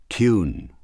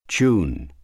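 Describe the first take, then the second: Both takes have the same delivery.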